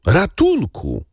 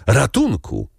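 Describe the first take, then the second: First: Much higher, desperate second cry; przeraźliwy krzyk; piercing scream for help. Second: First call for help, raised and urgent; a frightened maid calls out; wołanie o pomoc; crying for help. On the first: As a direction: shriek it as panic takes over. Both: A narrator's reading. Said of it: "wołając".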